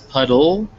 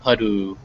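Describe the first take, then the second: First: The word ends with a clear L sound. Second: The word ends with a W-like vowel sound. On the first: The speaker calls it right. "make sure it's a ol and not a oo" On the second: The speaker calls it wrong. "not a like a w sound"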